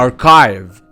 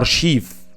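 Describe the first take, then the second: First: The middle consonant is a k sound. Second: The middle consonant is an sh sound. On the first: The speaker calls it right. "لا هي اسمها اركايف" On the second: The speaker calls it wrong. "عشان انت بتنطقها غلط"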